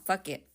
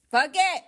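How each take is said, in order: First: Said in the usual way. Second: Sudden high, louder outburst; crazy yell. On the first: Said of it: "Oh, well". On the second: Real, not acted. Coach showing her little crazy side, yelling. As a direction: let it burst out high and wild. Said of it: "hear my little crazy side".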